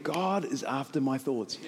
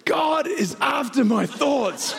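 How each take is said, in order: First: Low, soft, slow; quiet inner realization. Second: High, slow, drawn-out cry; crazed proclamation. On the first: Pastor's message coming into his head, quiet realization. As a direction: let it drop in as a hushed thought. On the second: Pastor gone mad to his riding partner, high proclaiming cry. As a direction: proclaim it wildly at a startled friend. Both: Retold or imitated.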